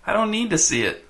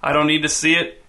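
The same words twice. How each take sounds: First: High, thin, slightly whiny voice. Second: Faint drawl at an everyday pitch; just a touch of drawl. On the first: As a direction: whine it a little, pitched up. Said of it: "thin and a little whiny". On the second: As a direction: answer with a light, understated drawl. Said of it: "in a faint drawl". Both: A narrator's reading.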